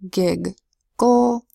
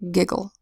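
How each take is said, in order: First: The syllables are said apart with two G sounds. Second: The syllables are blended with one G sound.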